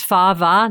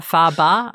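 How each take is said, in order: First: "fava" pronounced FAH-vah, V not B. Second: "faba" pronounced FAH-bah, B not V. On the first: Correcting the bean's name, "fava" with a V. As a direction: say "fava" with a clear V in the middle. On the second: Rejecting the other bean name, "faba" with a B. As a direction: say "faba" with a B in the middle. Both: Shown as a demonstration. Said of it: "I thought there was a B".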